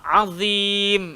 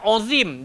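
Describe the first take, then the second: First: The first vowel is open, like 'a'. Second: The first vowel is rounded, like 'o'. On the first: The speaker calls it right. "dia kena bunyi a" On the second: The speaker calls it wrong. "Bukan ozim"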